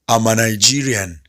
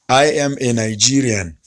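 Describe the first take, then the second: First: I am is joined into one contracted word. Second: I am is said as two full words. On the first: "you can simply say" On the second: "Instead of saying that"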